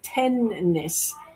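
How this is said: The N is held long, like a double consonant.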